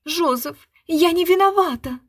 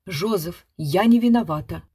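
First: High, loud offended schoolgirl tone. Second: Prompter's drone. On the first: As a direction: play a hurt boarding-school girl. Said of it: "тоном обиженной институтки". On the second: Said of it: "загудела из суфлёрской будки". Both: A narrator's reading.

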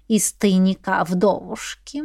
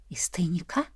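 First: Said in the usual way. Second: Whispered, much softer "Из тайника?" with a rising question. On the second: Acted. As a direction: breathe "Из тайника?" in a hushed whisper, rising at the end.

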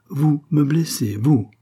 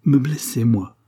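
First: Slow, louder, each word hammered; a queen repeating the insult with scorn; slower indignant cry. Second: A queen crying out in offended pride; indignant cry. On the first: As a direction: spell out her outrage slowly. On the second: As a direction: fling it back at him. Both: A narrator's reading. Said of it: "s'écria-t-elle".

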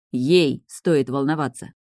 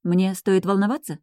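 First: Ей hit hard, the whole line slow and pointed; slow angry stress landing on ей. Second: Said in the usual way. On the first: Acted. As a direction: lean on ей, let the rest drag out. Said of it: "вдруг разозлился Нейт". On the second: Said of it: "поинтересовалась девушка".

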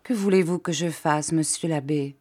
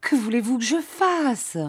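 First: Subdued, helpless question; meek, understated plea; faltering. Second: High-pitched, acted tearful wail; despairing high cry; sobbing plea. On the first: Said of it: "Alors elle balbutia". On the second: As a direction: wail it helplessly, as if through sobs. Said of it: "Elle sanglotait". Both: A narrator's reading.

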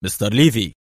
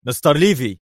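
First: Exclaimed. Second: His name snapped high in anger; mild angry address. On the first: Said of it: "وهتف". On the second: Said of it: "قال برونو في غضب". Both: Acted.

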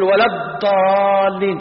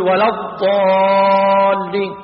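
First: ولا الضالين chanted with the ḍad mispronounced, long aa; wrong recitation. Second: ولا الضالين chanted with a long held aa and heavy ḍad; model recitation. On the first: Teacher imitates a reader's mistake, ولا الضالين wrongly articulated. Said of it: "لا، هذا غلط". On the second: Teacher shows a student how you recite, ولا الضالين long-held. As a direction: recite ولا الضالين slowly, drawing out the vowel. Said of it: "أنت لما تقول، قول". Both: Shown as a demonstration.

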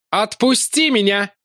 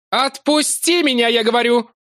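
First: Higher, slow angry demand; Larry demanding to be put down; furious yell. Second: Larry angrily repeating his demand; furious yell. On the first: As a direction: bark it at the monster. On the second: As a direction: push harder, losing patience. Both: A narrator's reading. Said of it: "орал гневно и яростно".

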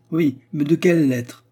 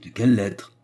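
First: High, loud taunting question; emphatic scornful query; pointed question. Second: Mildly puzzled question; understated surprise, near usual pitch; surprised echo. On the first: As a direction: challenge with raised pitch and volume. Mocking question, then echoed in surprise. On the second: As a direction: repeat it back, taken aback. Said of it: "répéta Anna surprise". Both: A narrator's reading.

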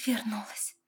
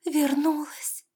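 First: Echo. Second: High, slow whispered wonder; mother whispering with joy; awed whisper. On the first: Daughter echoing mother's word. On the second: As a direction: breathe it out in disbelief. Mother overwhelmed by daughter's return. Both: A narrator's reading.

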